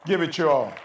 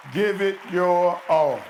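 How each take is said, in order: First: Loud exhortation; urging. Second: Loud, very slow, each word weighed; slow emphatic. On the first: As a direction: call the audience to action. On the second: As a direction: hammer it home one word at a time. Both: Shown as a demonstration. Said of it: "that's all we asking of you all".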